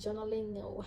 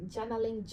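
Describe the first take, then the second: First: "journaling" with a rounded first vowel, JON-uh-ling; alternative pronunciation. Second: "Journaling" with an open first vowel, JAN-uh-ling; alternative pronunciation. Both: Shown as a demonstration. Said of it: "however you want to pronounce it".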